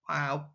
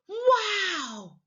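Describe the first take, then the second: First: The word sounds flat and unexcited. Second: The word sounds surprised and excited. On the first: The speaker calls it wrong. "just wow" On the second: The speaker calls it right. "I'm sounding surprised and excited"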